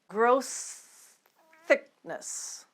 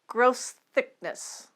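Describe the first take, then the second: First: The phrase is said slowly. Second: The phrase is said at normal speed. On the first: "Start slowly" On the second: "Now let's get it up to normal speed"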